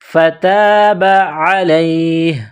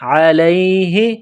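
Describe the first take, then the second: First: The word ends with no vowel sound. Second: The word ends with a short i vowel. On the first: The reader stops at this word. "जब वक़फ़ करेंगे तो हा को साइलेंट करेंगे" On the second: The reading continues without stopping. "अलैहा ज़ेर ही"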